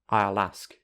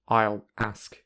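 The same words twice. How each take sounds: First: The two words run together smoothly. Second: The two words are said separately. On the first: "with linking" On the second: "without linking"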